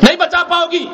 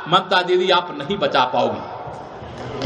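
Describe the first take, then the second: First: Raised, ringing rally shout; shouted warning. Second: Slow, low, trailing-off warning. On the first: Speaker telling the chief minister she cannot save him, shouted. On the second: Speaker warning the chief minister she cannot save him, low and slow. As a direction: let it sink low and drawn out. Warns rival, then repeats it. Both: Real, not acted.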